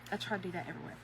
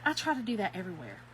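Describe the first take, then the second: First: Softer echo of the line; quiet. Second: Said in the usual way. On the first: Real, not acted. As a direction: repeat it quietly to yourself. Repeated line, much quieter.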